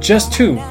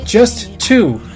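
First: The t sound is said once. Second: The t sound is said twice.

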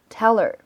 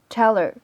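First: The h sound in 'her' is dropped. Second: The h sound in 'her' is dropped.

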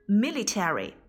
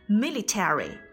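The two takes are said the same way.

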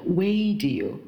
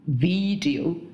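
First: The V is made without teeth on the lip. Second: The V is made with teeth on the lip. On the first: The speaker calls it wrong. "不是video" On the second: The speaker calls it right. "video 一定要咬舌"

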